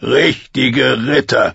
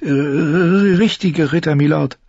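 First: Slow, sneering echo of her words; mocking. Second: Put-on high, slow, hesitant girl's reply; timid answer. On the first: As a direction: throw her words back with scorn. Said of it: "spottete er". (höhnisch nachgeäfft) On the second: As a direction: answer shyly, barely daring. Sansa antwortet ängstlich. (schüchtern und zögernd)

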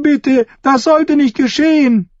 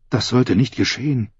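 First: Sehr hoch herausgeschrien; flehender Schrei. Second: Said in the usual way. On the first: A narrator's reading. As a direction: schrei es wie ein verzweifeltes Mädchen. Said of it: "rief ein Mädchen". (verzweifeltes, hohes Flehen)

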